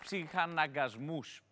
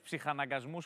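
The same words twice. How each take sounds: First: The word is broken by a short pause inside. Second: The word is said smoothly without any pause.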